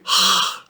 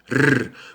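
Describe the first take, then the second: First: The r is a breathy sound from the throat. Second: The r is a vibrating trill at the tongue tip. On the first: The speaker calls it wrong. "Só não pode ser R" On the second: The speaker calls it right. "o R vai ser sempre vibrante"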